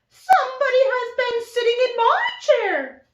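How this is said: It is said in a medium-pitched voice.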